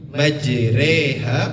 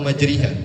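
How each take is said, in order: First: The vowel after r is an e, between a and i. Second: The vowel after r is a full i. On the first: The speaker calls it right. "Setengah daripada ro dan setengah daripada ri" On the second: The speaker calls it wrong. "atau majriha"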